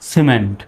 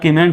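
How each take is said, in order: First: The word begins with an s sound. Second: The word begins with a k sound. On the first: The speaker calls it right. "সর মতো হবে" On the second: The speaker calls it wrong. "এখন আর কিমেন্ট বলা যাবে না"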